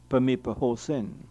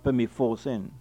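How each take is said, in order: First: The P and H are sounded separately. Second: The P and H merge into an F sound. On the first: The speaker calls it right. "pronounced separately as if it were PE and then HOSIN" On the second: The speaker calls it wrong. "not Pemifosin"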